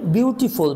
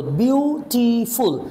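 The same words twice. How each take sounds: First: Said in the usual way. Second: বিউটিফুল broken slowly into বিউ, টি, ফুল; slow teaching split of বিউটিফুল; syllable by syllable. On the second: Shown as a demonstration. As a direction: stretch বিউটিফুল out, stopping after each syllable. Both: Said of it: "কয়েকবার আমাকে থামতে হয়".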